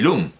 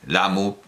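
First: The name is said with a u vowel. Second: The name has an a vowel and ends in u. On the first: "no debo leerlo como se escribe" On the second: "por la pronunciación japonesa"

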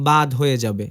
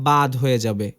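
The two takes are said the same way.

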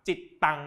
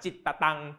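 First: The consonants join with no extra middle syllable. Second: An extra short 'ta' syllable is said mid-word. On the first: "แต่ถ้ามันมีจุดปั๊บจิตตัง" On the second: "ไม่มีจุดไปควบคำข้างหน้าก็จะอ่านจิตตะตัง"

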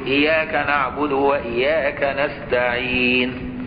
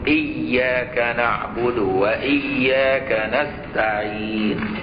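First: The y sound in iyyaka is single. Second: The y sound in iyyaka is doubled. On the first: The word means the light, changing the meaning. The speaker calls it wrong. "ما في الشدات" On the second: The word means you alone. The speaker calls it right. "يبقى لازم يقول"

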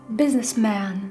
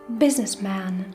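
No difference in how they are said.

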